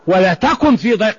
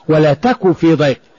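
First: The verb ends with a clear n sound. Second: The verb ends without any n sound. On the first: "جاب النون" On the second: "وأحيانا حذف النون"

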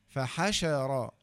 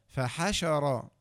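The two takes are said the same way.

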